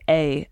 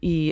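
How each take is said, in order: First: The pronoun is said with an 'ay' vowel. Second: The pronoun is said with an 'ee' vowel. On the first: This is a less common variant. "there's a variation where you say A" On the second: This is the usual way of saying it. "I usually pronounce them E"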